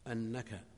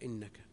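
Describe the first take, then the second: First: The word begins with an 'a' vowel. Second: The word begins with an 'i' vowel. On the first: It gives the reason as an explanatory clause. "جاء مضبوطا بالهمزة المفتوحة" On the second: It introduces a conditional clause. "وجاء بكسرها إنك"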